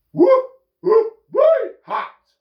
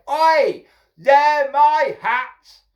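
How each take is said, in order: First: Very high, loud monkey squawk; mimicking monkeys. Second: High, loud, drawn-out protest; indignant shout. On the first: Monkeys mocking the hatter from the trees, hooting mimicry. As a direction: hoot and parrot it like cheeky monkeys. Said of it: "they're copying me". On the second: Hatter pointing up at the monkeys, indignant shout. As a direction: holler up at thieves. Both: A narrator's reading.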